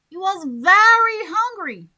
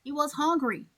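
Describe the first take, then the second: First: Very hit higher and louder; stress on very. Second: Said in the usual way. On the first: Shown as a demonstration. Teacher showing emphasis on very to students. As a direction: punch very before hungry. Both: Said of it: "when you want to emphasize".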